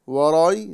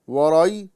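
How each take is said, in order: Both takes have the same delivery.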